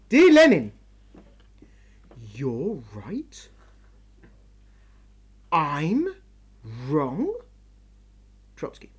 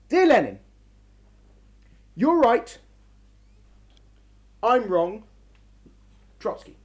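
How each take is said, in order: First: It is read as sarcastic, disbelieving questions. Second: It is read as a sincere admission.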